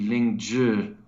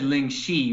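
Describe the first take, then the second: First: The second syllable begins with a j-like sound. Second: The second syllable begins with an sh sound. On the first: The speaker calls it right. "the Z H is like a J sound for us" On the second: The speaker calls it wrong. "you said Ling Shi, which would be X I"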